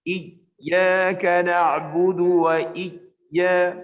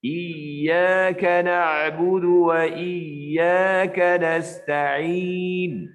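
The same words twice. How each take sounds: First: Slow chant, voice cut off at the ya of "iyyaka"; wrong recitation. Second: Slow chant, "iyyaka" ya flowing with voice; smooth tajwid chant, no break on the ya of "iyyaka"; correct recitation. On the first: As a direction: recite "iyyaka" with a hard stop on the ya. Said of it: "nah, itu tak betul". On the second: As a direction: recite "iyyaka" so the voice keeps running through the ya. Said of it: "Cara yang betul ialah". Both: Shown as a demonstration.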